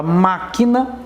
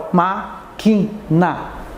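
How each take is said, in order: First: Said in the usual way. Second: "máquina" split slowly into má, qui, na; "máquina" very slowly, broken into three beats; syllable by syllable. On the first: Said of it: "Quando você fala máquina". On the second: Shown as a demonstration. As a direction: separate each syllable of "máquina" with a pause. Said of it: "Separa, ó".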